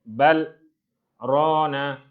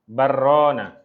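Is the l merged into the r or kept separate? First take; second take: separate; merged. First: The l is clear, with a brief stop before r. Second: The l merges into the r without a break. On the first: "lam mesti diizharkan" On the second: "lam jumpa ro, kita kena bersebut barrona"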